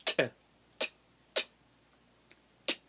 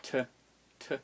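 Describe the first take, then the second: First: "T" as a quick snapped click; hard T. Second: "T" as a soft aspirated tuh; normal T. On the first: Teacher demonstrating hard T, quick and snapped. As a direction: pop "T" sharply from a closed throat, no breath. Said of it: "that becomes a hard T". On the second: Teacher sounding a normal T, lightly released. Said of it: "normal T". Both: Shown as a demonstration.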